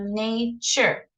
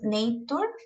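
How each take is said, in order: First: The middle consonant sounds like ch. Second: The middle consonant is a plain t sound. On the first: The speaker calls it right. "sino nature" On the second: The speaker calls it wrong. "ese no seríamos nature, porque ese no es el sonido"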